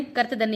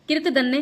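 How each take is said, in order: First: कर्तधन्य as kart-dhanya; a sound after क in कर्तधन्य; correct form. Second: कृतधन्य as kirt-dhanya; i sound after क in कृतधन्य; wrong form. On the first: (सही उच्चारण, कर्तधन्य) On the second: (गलत उच्चारण, कृतधन्य) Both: Shown as a demonstration. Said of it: "कर्तधन्य ये वाला शुद्ध है".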